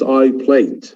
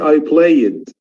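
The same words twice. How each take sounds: First: The ending adds no extra syllable. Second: The ending adds an extra syllable. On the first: The speaker calls it right. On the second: The speaker calls it wrong. "So I don't say"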